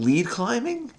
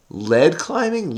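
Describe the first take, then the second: First: Much higher, rising disbelieving question; wait, is that really it?; doubting. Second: Said in the usual way. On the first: Real, not acted. Checking her crossword answer, doubting.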